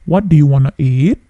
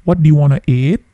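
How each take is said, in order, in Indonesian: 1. Kata 'want to' disingkat menjadi 'wanna'. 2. Kata 'want to' disingkat menjadi 'wanna'.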